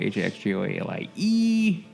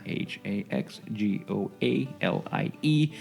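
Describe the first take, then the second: First: The letters are spelled out quickly. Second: The letters are spelled out slowly.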